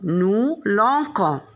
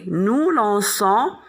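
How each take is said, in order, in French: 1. Le c se prononce comme un k dur. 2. Le c se prononce comme un s doux. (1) "si on ajoute, on garde le radical L A N C et on ajoute O N S, on va prononcer lancons" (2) "pour prononcer nous lançons, on doit mettre une cédille"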